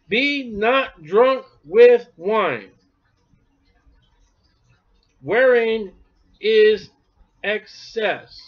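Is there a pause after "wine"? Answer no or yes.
yes. There is a pause after "wine". Wine itself leads to excess. The speaker calls it right.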